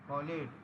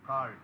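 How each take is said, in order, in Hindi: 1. -ed अंत को एक अलग अक्षर की तरह बोला जाता है। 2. -ed अंत कोई अतिरिक्त अक्षर नहीं जोड़ता। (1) "कॉलेड नहीं है भाई" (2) "ये कॉल्ड है।"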